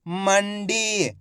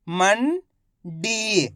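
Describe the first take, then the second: First: Mandi joined, long "डी" falling; blended whole word. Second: Mandi in two parts, "मं" rising, pause, long "डी"; very slowly sound out Mandi piece by piece; split into syllables. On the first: Teacher showing learners the result, Mandi blended together. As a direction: say Mandi as one slow unbroken word. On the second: Teacher breaking Mandi down for learners, syllable by syllable. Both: Shown as a demonstration. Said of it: "इनको आपस में मिला के पढ़ना है".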